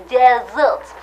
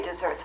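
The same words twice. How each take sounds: First: "desserts" drawn out slowly in a put-on French accent; French-style "desserts", slow with an l-like sound before the final ts; mock French accent. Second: Said in the usual way. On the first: Shown as a demonstration. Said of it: "but the French say desserts". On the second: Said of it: "We say desserts".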